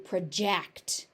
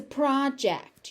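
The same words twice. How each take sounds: First: "project" stressed on the second syllable, pruh-JECT; "project" as a verb, pruh-JEKT. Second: "project" stressed on the first syllable, PROJ-ect; "project" as a noun, PRAH-jekt. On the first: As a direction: reduce the first syllable of "project", lean on JECT. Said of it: "As a verb". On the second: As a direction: hit PROJ in "project", higher. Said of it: "So as a noun". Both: Shown as a demonstration.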